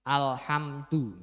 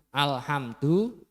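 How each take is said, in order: The two takes are said the same way.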